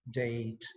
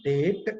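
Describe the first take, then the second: First: DATE with a gliding 'eh-ee' vowel, low and slow; correct diphthong. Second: DATE with one long 'ehh', no glide; wrong pure vowel. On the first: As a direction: glide slowly through the vowel of DATE, "de-it". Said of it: "That's called a diphthong". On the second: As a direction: say DATE as "deht", vowel held steady. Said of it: "it's not date". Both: Shown as a demonstration.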